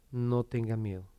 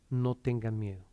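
The two takes are said the same way.

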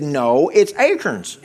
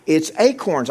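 First: "acorns" said AY-kerns, the way the preacher says it; his own way of saying acorns. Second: "acorns" as AY-korns, with a full "corn"; "acorns" pronounced AY-korns, as the friend corrects him; her way of saying acorns. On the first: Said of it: "I said". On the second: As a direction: say "acorns" with a clear "corn" in the second syllable. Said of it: "No, you say it like this". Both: Retold or imitated.

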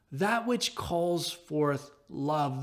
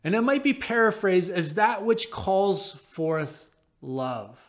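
First: That which calls forth love, slow and much softer; reflective echo. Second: Said in the usual way. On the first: Shown as a demonstration. Pastor echoes Barclay's definition, slow and hushed. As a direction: let the phrase settle slowly. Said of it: "echoed phrase". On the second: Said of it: "Barclay writes".

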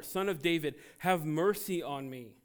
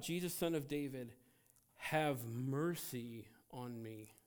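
First: Louder shouted plea for mercy. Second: Said in the usual way. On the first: Retold or imitated. Blind man shouting past the rebuking crowd, louder plea. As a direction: call over the crowd. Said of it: "he shouted all the more". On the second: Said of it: "he called out".

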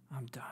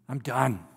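First: "I'm done" breathed in a whisper, much softer. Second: Said in the usual way. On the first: Acted. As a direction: let "I'm done" fall away to a whisper of defeat. David's prayer, said twice.

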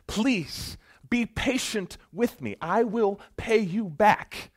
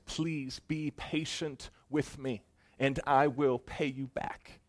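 First: Slow, high, loud desperate begging; desperate plea. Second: Slow, pleading plea for patience; begging servant. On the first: Choked servant crying out to his creditor, slow and desperate. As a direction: cry out for mercy while being choked. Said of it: "the exact same thing that this other servant said". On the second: Servant begging the ruler for mercy, slow and pleading. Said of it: "He begins to beg". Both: Acted.

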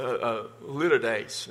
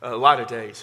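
First: "a litter days" said in a Texas drawl, like litter; Texas-accent litotes. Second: "A lot of days" said with a louder, clear "lot of"; other pronunciation. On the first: Pastor showing the congregation his Texas pronunciation. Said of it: "My Southern, my Texas accent". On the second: Pastor offering the congregation another pronunciation. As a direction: give "A lot of days" as the second way to say litotes. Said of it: "There's different ways to pronounce it". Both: Shown as a demonstration.

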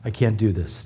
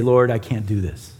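First: Softer and lower, almost giving up; a hushed, spent echo of the plea; fading plea. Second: Low, hushed plea to the Lord; a worn-out cry for help, kept low; mild spent prayer; desperate prayer. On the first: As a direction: let the repeat sink away quietly. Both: Retold or imitated. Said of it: "we finally cry out to him and say".

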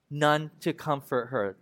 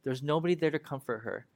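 First: Drawn-out, solemn refrain; weighty reading of the refrain; slow scripture refrain. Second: Said in the usual way. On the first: Acted. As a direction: stretch the line like a lament.

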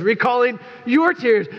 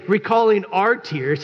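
First: "your" in "Recalling your tears" said higher and pushed hard; stress on your. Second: Said in the usual way. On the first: Shown as a demonstration. Pastor reading Paul's letter to the church, "your" stressed. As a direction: lean on the word "your", teasing. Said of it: "He says". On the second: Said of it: "He doesn't say".

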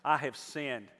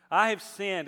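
First: Said in the usual way. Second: Louder, higher confession with a punch; booming motivational speech. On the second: Acted. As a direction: proclaim it with full force. Second take, louder and higher.

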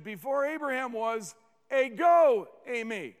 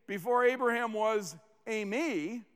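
First: "ego eimi" punched out louder; stress on ego. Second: Said in the usual way. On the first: Shown as a demonstration. Preacher quotes what Jesus really said, "ego eimi" emphatic. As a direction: hit "ego" hard after an even lead-in. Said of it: "redundancy of emphasis on the word". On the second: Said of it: "He didn't just say".

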